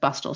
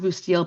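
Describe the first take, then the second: First: The name sounds like the word 'bustle'. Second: The name ends with a 'steel' sound. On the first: This is how the family's descendants say it. "people descended from the family refer to it as the the name is Bustle" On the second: This is the pronunciation commonly heard. "I always heard it pronounced Boustille"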